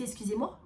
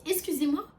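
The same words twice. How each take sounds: First: Said in the usual way. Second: "Excusez-moi" pitched high and louder; affronted, emphatic. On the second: Retold or imitated. Narrator challenges the interfering man, "Excusez-moi" high and forceful.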